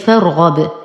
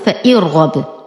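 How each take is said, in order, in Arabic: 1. الفاء تتصل مباشرة بالراء الساكنة. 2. تُنطق همزة وكسرة قبل الراء. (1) "أنتقل من فتحة الفاء إلى إسكان الراء دون أي ذكر للهمزة" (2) "لا أقول فإرغب"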